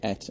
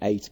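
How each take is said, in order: First: The word sounds like et. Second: The word sounds like eight. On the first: This way sounds old-fashioned to the young. "when they hear myself and my wife say et and says" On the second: This is the younger generation's way of saying it. "they are all in the says and eight group"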